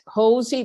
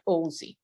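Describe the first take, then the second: First: The word begins with an audible h sound. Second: The word begins directly with a vowel sound. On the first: The speaker calls it right. "the H is pronounced" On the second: The speaker calls it wrong. "you won't get ozy"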